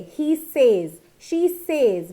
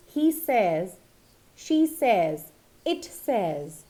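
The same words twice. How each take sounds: First: SAYS rhyming with "days", after he and she; wrong pronunciation. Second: SAYS rhyming with "fez"; correct pronunciation. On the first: Teacher mimics many people's mistake, says as "sayz". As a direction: say says as "sayz" each time. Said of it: "but it is not done like that". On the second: Teacher models the correct one for learners, says as "sez". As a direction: say says as "sez", short vowel, each phrase set apart. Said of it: "Correct one being". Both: Shown as a demonstration.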